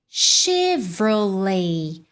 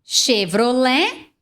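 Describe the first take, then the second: First: It is said with an English pronunciation. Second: It is said with a Brazilian Portuguese pronunciation. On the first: "em inglês, tende a soar mais como Chevrolet" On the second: "Que é como nós falamos aqui no Brasil"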